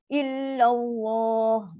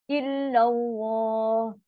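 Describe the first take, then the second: No difference in how they are said.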